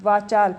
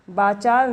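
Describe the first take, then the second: First: वाचाल said with a clear V; वाचाल with a V, as corrected; correct V sound. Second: वाचाल said with B, as बाचाल; वाचाल with a B, the mistake; wrong B sound. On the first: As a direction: say वाचाल with V, the right way. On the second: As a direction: say वाचाल with a B to show the error. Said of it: "वाचाल नहीं". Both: Shown as a demonstration.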